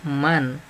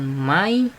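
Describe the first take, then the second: First: The word ends in a clear n sound. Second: The word ends in an i sound. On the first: The speaker calls it right. "dibacanya jelas, yaitu man" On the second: The speaker calls it wrong. "bukan mai"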